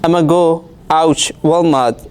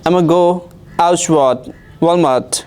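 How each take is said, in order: First: 'I am going to' is squeezed into 'I'ma'. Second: The same.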